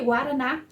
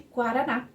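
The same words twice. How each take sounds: First: It is said with a Brazilian Portuguese pronunciation. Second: It is said with an American English pronunciation. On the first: This is how Brazilians say it. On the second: This is how Americans say it.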